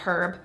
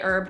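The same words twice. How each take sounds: First: It is said the non-American way. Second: It is said the American way. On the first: "not herb" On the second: "I'm from the U S, we say herb"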